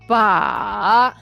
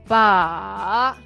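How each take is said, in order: First: The pitch dips low, then rises high. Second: The pitch dips low, then rises high.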